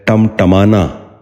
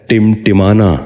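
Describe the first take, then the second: First: ٹمٹمانا with short a's, "tamtamana"; short a after each ٹ in ٹمٹمانا; mispronounced. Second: ٹمٹمانا with short i's, "timtimana"; short i after each ٹ in ٹمٹمانا; correct pronunciation. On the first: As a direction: say ٹمٹمانا as "tam-ta-ma-na". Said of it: "یہ غلط تلفظ ہے". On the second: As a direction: say ٹمٹمانا as "tim-ti-ma-na". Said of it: "درست تلفظ ہے". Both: Shown as a demonstration.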